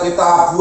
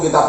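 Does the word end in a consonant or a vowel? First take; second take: vowel; consonant. First: The word ends with a clear final u vowel. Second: The word ends on the consonant b. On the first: The speaker calls it right. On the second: The speaker calls it wrong.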